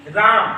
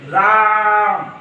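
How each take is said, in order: First: Said in the usual way. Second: राम with the long आ stretched to three beats; Rāम like a prolonged call, vowel held long; drawn-out vowel. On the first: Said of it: "जहां पर रेंग के बोला जाए". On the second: Shown as a demonstration. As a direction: drag out the आ in राम slowly. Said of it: "जहां पर रेंग के बोला जाए थोड़ी सी".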